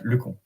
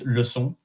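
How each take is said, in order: First: The second syllable begins with a K sound. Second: The second syllable begins with an S sound. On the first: It means a stupid person. The speaker calls it wrong. "if you forget the C C D, it is pronounced like le con" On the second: It means lesson. The speaker calls it right. "If you have to pronounce the S sound like lesson"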